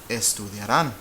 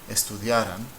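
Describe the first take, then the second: First: The stress is on the last syllable. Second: The stress is on the second-to-last syllable. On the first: "the voice goes up at the end" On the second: "which means if they studied"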